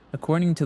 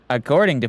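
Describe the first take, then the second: First: It is read in an ordinary speaking voice. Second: It is read in a put-on news-anchor voice.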